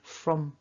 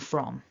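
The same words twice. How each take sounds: First: The word is said with a reduced weak vowel. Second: The word is said with a full strong vowel. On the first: The speaker calls it wrong. "I wouldn't opt for weak forms. I wouldn't say" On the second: The speaker calls it right. "It would be for and from, to emphasize"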